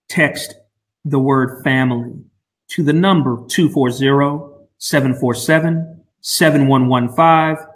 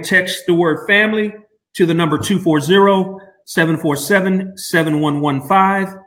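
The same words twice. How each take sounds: First: It is said slowly and carefully. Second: It is said at a normal pace.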